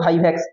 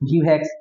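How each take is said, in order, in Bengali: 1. প্রথম সিলেবলটি 'vai' হিসেবে বলা হয়। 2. প্রথম সিলেবলটি 'vi' হিসেবে বলা হয়। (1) "এইগুলো আসল উচ্চারণ" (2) "আমরা উচ্চারণের সুবিধার্থে মনে রাখছিলাম অন্যভাবে"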